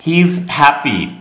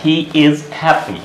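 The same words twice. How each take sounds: First: HE IS run together as he's; contracted he's. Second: HE IS as two separate words; full uncontracted form. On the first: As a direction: say "he is" as one syllable, heez, before happy. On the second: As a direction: spell out "He is" in full, with IS sounded. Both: Shown as a demonstration. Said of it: "इसका मतलब क्या हो गया".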